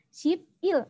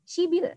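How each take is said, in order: First: The two parts are said separately with a p. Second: The parts are linked and the p becomes b. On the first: "sebelas itu adalah ship il" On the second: "dibaca shibil"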